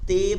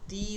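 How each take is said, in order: First: The vowel sounds like 'e'. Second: The vowel sounds like a thin 'i'. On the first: The speaker calls it wrong. "তে বলা যাবে না" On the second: The speaker calls it right. "তি বলতে হবে"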